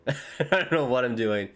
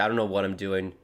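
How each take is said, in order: First: Said through a laugh. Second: Said in the usual way. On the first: Real, not acted. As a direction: let the laugh spill into the words. Repeats the line laughing.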